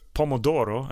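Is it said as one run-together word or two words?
one word. It is said quickly as one joined word. It means tomato.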